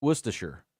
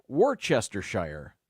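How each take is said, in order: First: WORCESTERSHIRE as WUSS-tuh-shur; correct pronunciation. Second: WORCESTERSHIRE slowly as war-CHESS-ter-shire; sounded-out mispronunciation. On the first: Host correcting the sauce name, WORCESTERSHIRE said WUSS-tuh-shur. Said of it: "It's actually pronounced". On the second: Host showing the wrong way, WORCESTERSHIRE said war-CHESS-ter-shire. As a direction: sound out every written part of WORCESTERSHIRE, ending in shire. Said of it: "they just sounded out". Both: Shown as a demonstration.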